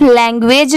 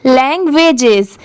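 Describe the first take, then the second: First: "लैंग्वेज" ending on a bare j sound; singular ending. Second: "लैंग्वेजेस" with a clear final jes syllable; full -es ending. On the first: Teacher showing the incomplete reading, "लैंग्वेज" with no -es ending. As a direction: say "लैंग्वेज" without the final -es. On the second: Teacher correcting the short reading, "लैंग्वेजेस" with sounded -es. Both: Shown as a demonstration. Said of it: "इसे सिर्फ लैंग्वेज नहीं पढ़ेंगे".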